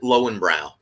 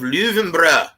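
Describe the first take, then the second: First: The name is said in an American way. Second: The name is said in a German-style way.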